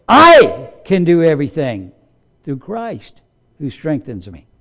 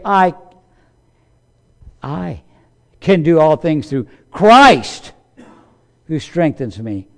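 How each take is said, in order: First: The wrong way, all weight on "I"; stress on I. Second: The right way, glory on "Christ"; stress on Christ. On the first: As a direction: lean hard on "I" in "I can do everything". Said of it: "that's not the way that sentence was written". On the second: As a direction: let "I" fade and lift "through Christ". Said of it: "we've got it right". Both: Shown as a demonstration.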